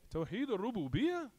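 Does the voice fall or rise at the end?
rise. The voice rises at the end, like a question. It asks whether the answer is correct. The speaker calls it wrong. "It's like you're asking"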